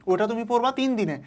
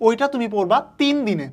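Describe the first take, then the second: First: পড়বা lifted, the rest calm and falling; teacher repeats it, pointing at পড়বা; stress on পড়বা. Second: তিন hit harder and louder; teacher pressing hard on তিন; stress on তিন. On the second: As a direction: lean on the word তিন with a falling close. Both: Shown as a demonstration.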